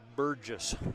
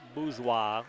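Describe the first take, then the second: First: The name is said with English-style sounds. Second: The name is said with French-style sounds. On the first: The speaker calls it wrong. "I would probably have pronounced it Burgess" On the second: The speaker calls it right. "but it's Bourgeois, which sounds French to me"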